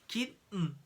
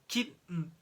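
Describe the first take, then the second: Both takes have the same delivery.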